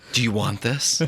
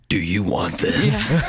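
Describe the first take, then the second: First: It is said in a normal voice. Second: It is said in a gruff Batman voice.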